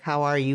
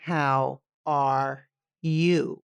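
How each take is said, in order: First: It is asked quickly and casually. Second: It is asked slowly and sincerely.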